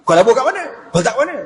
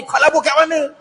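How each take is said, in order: First: Umar questioning. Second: High suspicious demand; Umar questioning. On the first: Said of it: "Lalu apa kata Omar?". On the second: Umar interrogates Abu Darda about his investment, suspicious. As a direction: voice Umar pressing for answers. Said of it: "Umar pantang dengan bab labur ni". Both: Acted.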